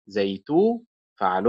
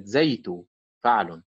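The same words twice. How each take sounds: First: زيتو with the stress on تو; stress on second syllable. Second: زيتو with the stress on زي; wrong stress, first syllable. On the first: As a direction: lean on the تو of زيتو. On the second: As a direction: punch the زي of زيتو. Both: Shown as a demonstration. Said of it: "وليست زيتو فعل".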